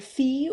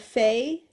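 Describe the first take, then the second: First: The vowel sounds like the one in 'see'. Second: The vowel sounds like the one in 'say'. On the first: "it's either Fee" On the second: "or Fey"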